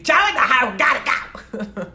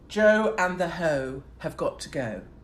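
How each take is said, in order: First: It is said in an exaggerated American accent. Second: It is said without an American accent.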